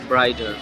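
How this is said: The middle t sounds like a soft d.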